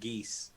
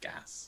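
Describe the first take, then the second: First: The word sounds like 'geese'. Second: The word sounds like 'gas'. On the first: The speaker calls it wrong. "I've been pronouncing it geese for many, many years" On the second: The speaker calls it right. "It is pronounced gas"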